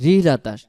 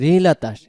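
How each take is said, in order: The two takes are said the same way.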